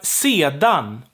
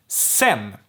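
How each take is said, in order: First: The word is said in full with two syllables. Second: The word is reduced to one short syllable.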